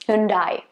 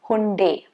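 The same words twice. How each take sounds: First: The last syllable sounds like 'die'. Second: The last syllable sounds like 'day'. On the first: "that yun yun and die" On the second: "the last syllable is supposed to be day"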